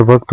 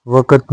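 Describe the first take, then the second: First: वक्त with k and t joined; correct cluster. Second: वक़्त split as "vakat"; wrong cluster. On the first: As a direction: say वक्त as "vakt". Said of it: "होता है". (वक्त में जुड़ा क्त) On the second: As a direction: add a vowel inside वक़्त. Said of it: "नहीं होता है". (वक़्त को वकत जैसा) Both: Shown as a demonstration.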